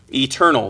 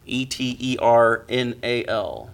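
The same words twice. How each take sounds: First: Said in the usual way. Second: "E T E R N A L" spelled letter by letter, each letter separate. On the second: Shown as a demonstration. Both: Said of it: "for those of you that need to spell it".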